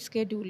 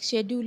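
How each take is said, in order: First: The word starts with an 'sk' sound. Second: The word starts with a 'sh' sound. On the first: "वो British और American का difference है" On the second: "वो British और American का difference है"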